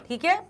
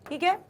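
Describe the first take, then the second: No difference in how they are said.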